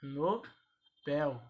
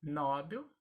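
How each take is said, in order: First: "Nobel" broken up, no... BÉL; stressed open BEL in "Nobel"; stress on last syllable. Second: "Nobel" said NÓ-bel; stressed first syllable in "Nobel"; common mispronunciation. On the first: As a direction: split "Nobel" and hit BEL. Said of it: "a pronúncia correta é". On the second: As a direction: hit NO in "Nobel". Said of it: "As pessoas pronunciam". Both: Shown as a demonstration.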